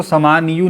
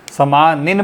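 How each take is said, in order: First: "समानियु" ending in -niyu; incorrect u ending. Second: "समानिन" ending in short -nin; "समानिन" with short i and final n, like गालिन; correct tanween ending. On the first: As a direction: say "समानियु" with an added short u. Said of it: "इसको समानियु नहीं पढ़ते". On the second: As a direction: say "समानिन" closing on an n. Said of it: "समानिन पढ़ते हैं". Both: Shown as a demonstration.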